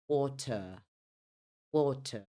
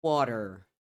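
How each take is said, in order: First: British "water" with silent final r; non-rhotic British water, crisp t; British pronunciation. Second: American "water" with sounded final r; American pronunciation. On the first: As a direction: say water as "WAW-tuh". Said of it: "No inglês britânico". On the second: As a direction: say water as "WAH-der". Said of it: "Já no inglês americano". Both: Shown as a demonstration.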